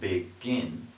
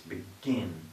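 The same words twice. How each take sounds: First: The stress is on the first syllable. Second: The stress is on the second syllable. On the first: The speaker calls it wrong. "It's not begin" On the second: The speaker calls it right. "it's begin. So the stress is on the second syllable"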